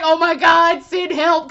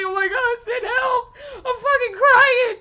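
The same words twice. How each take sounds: First: Higher and much louder mock cry for help; loud overwhelmed plea; overwhelmed outcry. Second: Much higher, louder teary shout with a laugh; loud sob-laugh cry for help; crying outcry. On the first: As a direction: shout it like the scene broke you. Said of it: "I'm sitting up here like". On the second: Retold or imitated. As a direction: wail for help while half laughing, half crying. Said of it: "I was in here crying".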